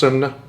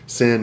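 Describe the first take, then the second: First: It is said with an oo-like vowel, two syllables. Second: It is said as one syllable with a short i. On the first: This is the original Norwegian pronunciation. "originally it's pronounced sun. It's pronounced sunna" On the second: This is the closer American approximation. "sin is actually closer"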